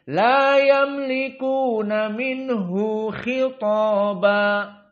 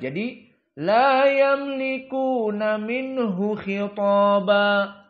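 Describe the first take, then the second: First: The vowel after minhu is lengthened to two beats. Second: The vowel after minhu is short, not lengthened. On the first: This follows one recognized reading tradition. "Itu bacaan Ibnu Katsir" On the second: This follows the majority reading tradition. "Bacaan jumhur dan Hafs an Asim tidak ada mad"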